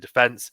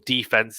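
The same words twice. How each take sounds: First: Defense is said the non-American way. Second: Defense is said the American way.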